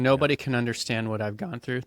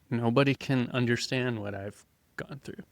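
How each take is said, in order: First: It is said in a proud, defiant tone. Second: It is said in an ashamed, hurt tone. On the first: My suffering makes me special. "it's like a pride struggle" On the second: My suffering must stay hidden. "same words, different tone. ... There's like this shame thing"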